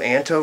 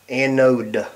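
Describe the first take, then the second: First: The word is said with a t sound. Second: The word is said without a t sound. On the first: The speaker calls it wrong. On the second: The speaker calls it right.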